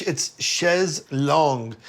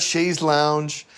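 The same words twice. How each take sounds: First: "chaise longue" said slowly, French "longue". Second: "chaise lounge" said very slowly as the mistake; wrong chaise lounge. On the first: Correcting a friend, slowly saying the French "chaise longue". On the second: Correcting a friend, mocking the wrong "chaise lounge". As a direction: drag out the wrong "lounge" to mock it. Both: Shown as a demonstration. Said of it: "not chaise lounge".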